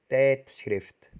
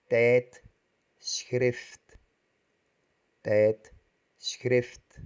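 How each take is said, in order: First: Said in the usual way. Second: Tijdschrift drawn out as tijd, schrift with a gap between; syllable by syllable; split into syllables. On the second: Shown as a demonstration. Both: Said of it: "Partimos la palabra compuesta".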